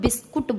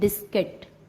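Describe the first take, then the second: First: The last syllable sounds like kut. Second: The last syllable sounds like kit. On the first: The speaker calls it wrong. "कुछ लोग बिस्कुट बोलते हैं, वो हिंदी में बोलते हैं" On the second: The speaker calls it right. "ये इसका एग्जैक्ट साउंड होता है"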